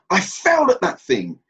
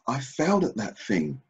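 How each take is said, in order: First: It is said with a harsh, attacking tone. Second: It is said with a soft, gentle tone. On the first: It condemns oneself. The speaker calls it wrong. "you can hear the venom in my voice. That's an attack" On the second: It looks for something to learn. The speaker calls it right. "I've taken the edge out of it"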